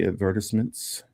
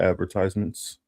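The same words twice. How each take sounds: First: It is said with a British accent. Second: It is said with an American accent.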